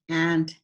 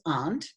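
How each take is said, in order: First: The vowel is the short 'a' of cat. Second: The vowel is an open 'ah' sound. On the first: "they're both pronounced the same way according to national news" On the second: "some of you um, pronounce the A U N T as aunt"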